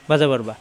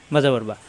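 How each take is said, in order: Both takes have the same delivery.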